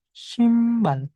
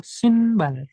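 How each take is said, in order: First: "simbal" with M before the B; assimilated M sound. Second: "Sinbal" read as written, N kept before B; unassimilated N sound. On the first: Teacher slipping into the advanced reading, "simbal" with M. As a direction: close the lips early for "simbal". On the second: Teacher giving beginners the simpler reading, "Sinbal" with N. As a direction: keep a clear N in "Sinbal", higher pitch. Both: Shown as a demonstration. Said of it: "aku tanpa bacaan dulu".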